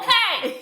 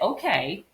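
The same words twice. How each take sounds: First: It is said loudly, like yelling. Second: It is said at normal volume.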